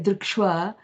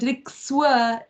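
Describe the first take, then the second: First: It has an sh sound before w. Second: It has a plain s sound before w. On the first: The speaker calls it wrong. "it's easier to say drikshwa" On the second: The speaker calls it right. "Instead of drikswa"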